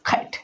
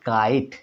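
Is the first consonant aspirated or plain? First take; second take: aspirated; plain. First: The first k has a strong puff of air. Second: The first k is plain, without a puff of air. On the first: The speaker calls it right. "ক এর স্থলে খ করে উচ্চারণ করব" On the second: The speaker calls it wrong. "আগে বলতাম"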